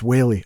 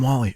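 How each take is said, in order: First: The name rhymes with 'daily'. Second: The name rhymes with 'Sally'. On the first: The speaker calls it right. "It's Whaley" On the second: The speaker calls it wrong. "I called him Wally"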